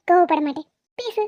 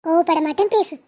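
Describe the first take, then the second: First: "கோவப்பட மாட்டேன்" with a forced, smiling tone; said with a smile. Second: A touch of sulky anger in "கோவப்பட மாட்டேன்"; grudging annoyance. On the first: Wife told to smile, says it with a forced grin. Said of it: "சிரிச்சுக்கிட்டே சொல்லு". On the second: Wife to husband, promising calm but sounding mildly annoyed. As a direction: say "கோவப்பட மாட்டேன்" through mild irritation. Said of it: "நீ கோவப்பட மாட்டேங்கிறது கூட கோவமா சொல்ற". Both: Acted.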